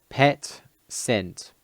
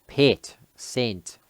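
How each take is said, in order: Both takes have the same delivery.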